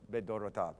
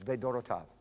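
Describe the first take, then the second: First: The word begins with a B sound. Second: The word begins with a V sound. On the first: "I'll pronounce it as a more of a B sound" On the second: "But technically, you're absolutely right. It's vedorotav"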